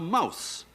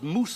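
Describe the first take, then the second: First: The vowel sounds like 'ow'. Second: The vowel sounds like a long 'oo'. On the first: This is how the word sounds today. "and it's now mouse" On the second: This is how the word sounded a thousand years ago. "The word was moose a hundred, a thousand years ago"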